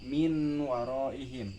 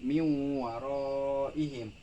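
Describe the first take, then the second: First: The n sound is pronounced clearly before w. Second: The n sound is merged into the w. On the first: The speaker calls it wrong. "bukan min waroihim" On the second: The speaker calls it right. "tetapi miwaroihim"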